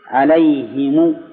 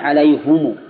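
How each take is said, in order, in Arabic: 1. الحركة بعد الهاء هي 'i'. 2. الحركة بعد الهاء هي 'u'. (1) "وهي مشهورة الآن" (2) "والفرق بينهن ضم الهاء"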